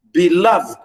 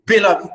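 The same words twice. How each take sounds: First: Beloved with weak be, strong falling LOVED; stress on LOVED. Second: Beloved with strong first syllable, falling away; wrong stress on BE. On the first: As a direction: land on the second syllable of beloved. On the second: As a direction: hit the BE in beloved. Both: Shown as a demonstration. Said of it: "I didn't say beloved".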